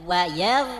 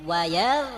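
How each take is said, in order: Both takes have the same delivery.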